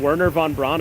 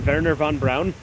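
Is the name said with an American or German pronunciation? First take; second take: American; German. First: The name is said with an American pronunciation. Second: The name is said with a German pronunciation. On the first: "instead of saying" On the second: "I say"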